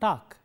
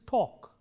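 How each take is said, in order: First: The vowel is said with unrounded lips. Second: The vowel is said with rounded lips. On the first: The speaker calls it wrong. "It's not" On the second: The speaker calls it right. "it is"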